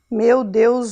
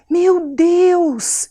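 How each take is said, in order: First: It is said flatly, without emotion. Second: It is said with astonishment.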